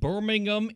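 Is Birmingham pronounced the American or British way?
British. The name is said with a British pronunciation. The speaker calls it wrong. "I am not your British correspondent"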